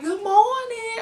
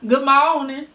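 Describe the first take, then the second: First: Very high-pitched Southern greeting; imitated country accent. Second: Louder Southern greeting, moderately high; imitated country accent. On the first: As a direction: sing out a Southern hello, pitched way up. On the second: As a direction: belt out a country-accent hello. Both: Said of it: "when you down there and they be like".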